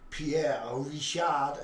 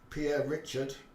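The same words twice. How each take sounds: First: The name is said with French pronunciation. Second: The name is said with English pronunciation.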